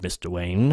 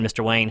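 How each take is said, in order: First: It is said in an imitated character voice. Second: It is said in the speaker's own natural voice.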